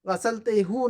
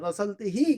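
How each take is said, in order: First: The final syllable ends with a 'u' vowel. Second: The final syllable ends with an 'i' vowel. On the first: The speaker calls it wrong. "गसलते हु नहीं कहेंगे" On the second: The speaker calls it right. "गसलते ही कहेंगे"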